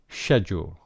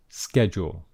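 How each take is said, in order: First: It is said with a British pronunciation. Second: It is said with an American pronunciation.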